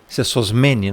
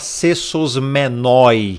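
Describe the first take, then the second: First: The word ends with an 'e' sound. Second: The word ends with an 'oi' sound. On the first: The speaker calls it right. "na pronúncia, porque aqui tem um, um ditongo" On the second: The speaker calls it wrong. "E não se fala sesosmenoi. Não existe sesosmenoi"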